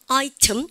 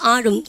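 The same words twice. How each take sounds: First: The t is clearly released before the ending. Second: The t is held in the throat, not released. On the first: This is the British way of saying it. "영국 애들은 mountain, item 여러분들 이렇게 합니다" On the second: This is the American way of saying it. "item 그리고 치우지 않습니까?"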